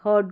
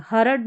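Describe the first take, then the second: First: हर्ड as one syllable, "hud", R dropped; हर्ड said "hawd" without the R; silent R. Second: हरड in two syllables, "ha-rud"; हरड with a vowel after the R; wrong full R. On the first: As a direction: let the R go in हर्ड. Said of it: "हर्ड करके बोलेंगे". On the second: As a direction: sound the R fully in हरड. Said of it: "हरड नहीं". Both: Shown as a demonstration.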